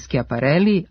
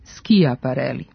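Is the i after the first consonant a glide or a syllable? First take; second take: glide; syllable. First: The i is a glide, like y. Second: The i is its own separate syllable. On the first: The speaker calls it right. "pišemo i govorimo kj za predvokalsko ki, pa je zato učestalije" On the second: The speaker calls it wrong. "a ne"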